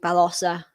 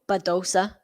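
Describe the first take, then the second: First: The name is said with a Spanish-style pronunciation. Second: The name is said with an English-style pronunciation. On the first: The speaker calls it right. "if you're using the Spanish pronunciation" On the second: The speaker calls it wrong. "a lot of people generally say"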